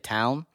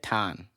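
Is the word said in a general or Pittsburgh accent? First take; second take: general; Pittsburgh. First: The vowel is a standard gliding 'ow' sound. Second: The vowel is flattened toward a plain 'ah'. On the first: "if you're gonna say town" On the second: "their accent is the O W sound ... they say ton"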